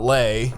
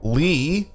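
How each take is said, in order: First: The name ends with an 'ay' vowel. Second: The name ends with an 'ee' vowel. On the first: The speaker calls it wrong. "not Lay" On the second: The speaker calls it right.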